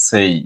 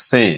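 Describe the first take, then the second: First: "সেই" with a gliding ei vowel; correct pronunciation. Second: Short plain vowel in "সে"; common local pronunciation. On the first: Teacher showing learners how it should be pronounced, correct gliding vowel. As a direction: glide from e into i on "সেই". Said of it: "উচ্চারণ হবে সেই". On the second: Teacher showing learners how people usually say it, common pronunciation. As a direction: say "সে" with a simple e, no glide. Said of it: "আমরা বলি সে". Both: Shown as a demonstration.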